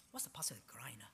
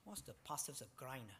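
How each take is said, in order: First: Whispered aside to himself. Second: Quiet aside. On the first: Asks again under breath. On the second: Preacher gropes for a word. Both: Real, not acted.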